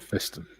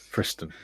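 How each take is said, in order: First: The word has no R sound after F. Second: The word has an R sound after F. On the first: The speaker calls it wrong. "not Fiston. That sounds so wrong" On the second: The speaker calls it right.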